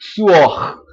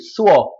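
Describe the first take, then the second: First: The final R is pronounced in the throat. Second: The final R is dropped completely. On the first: "esse R aqui no final, né, mexendo com a garganta" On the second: "Geralmente é só o quê?"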